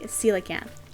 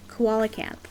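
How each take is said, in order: First: The word begins with a 'seela' sound. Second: The word begins with a 'koala' sound. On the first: This is how it is said now. The speaker calls it right. "I believe it is now called a coelacanth" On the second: This is how it was said in childhood. The speaker calls it wrong. "As kids, my friends and I, we always pronounced it koalacanth"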